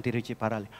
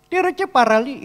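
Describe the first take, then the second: First: Said in the usual way. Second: "Tiruchiparalli" pitched high and loud, lilting; mimicked place name. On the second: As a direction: exaggerate "Tiruchiparalli" in a high singsong. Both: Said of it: "ya gitu ngomongnya".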